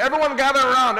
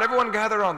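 First: Loud market call to the crowd. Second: Said in the usual way. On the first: Retold or imitated. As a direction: call the crowd over, raised voice.

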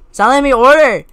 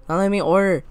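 First: Much louder, insistent complaint; frustrated shout. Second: Said in the usual way. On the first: Real, not acted. Player blocked from ordering, frustrated shout. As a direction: raise your voice so they finally hear.

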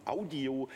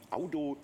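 No difference in how they are said.

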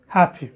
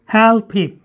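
First: "Help him" with the P in "Help" held, not popped; unreleased P. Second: HELP HIM with the P in "Help" let go before "him"; wrong released P. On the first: Teacher models the rule for students, P in "Help" unreleased. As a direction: hold back the P of "Help" and run into "him". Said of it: "you should not release the sound po". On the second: Teacher shows students the mistake, P in "Help" released. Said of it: "No, that's wrong". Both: Shown as a demonstration.

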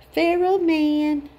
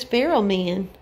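First: "Feral man" repeated slowly, a bit higher, savouring "Feral"; slow echo. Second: Said in the usual way. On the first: Shown as a demonstration. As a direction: draw out "Feral" amused.

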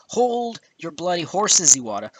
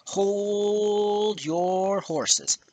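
First: Exasperated interjection. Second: Very drawn-out, high "Hoooold your horses"; exaggerated drawl. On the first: Cutting in on Iwata's claim, exasperated. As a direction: halt him with a slowed "Hold your bloody horses". Scolding the absent president. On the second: Telling Iwata to wait, exaggerated drawl. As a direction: stretch HOLD and YOUR enormously. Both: Real, not acted.

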